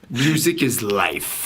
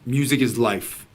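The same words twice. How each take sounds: First: It is said in a lively, animated way. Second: It is said in a flat, plain way.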